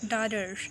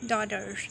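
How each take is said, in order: Both takes have the same delivery.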